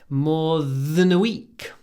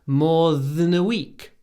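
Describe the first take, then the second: Both takes have the same delivery.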